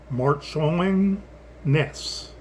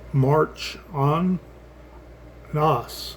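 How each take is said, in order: First: The middle vowel is a short 'ih' sound. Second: The middle vowel is a soft 'ah' sound. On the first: "instead of" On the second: "like a, a, a soft A H S sound"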